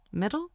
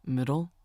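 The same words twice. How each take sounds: First: Surprised, rising much higher; puzzled question. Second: Said in the usual way. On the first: Acted. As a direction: ask it back in disbelief, pitched up. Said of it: "I asked".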